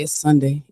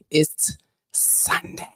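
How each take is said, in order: First: Said in the usual way. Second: Slow, breathy whisper of the same words. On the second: Shown as a demonstration. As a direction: hush it like a secret. Repeats Sunday line, then whispers.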